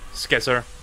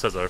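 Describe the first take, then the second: First: The word starts with an sk sound. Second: The word starts with a plain s sound. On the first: "I like pronouncing the C ironically" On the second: "I know it's scissor"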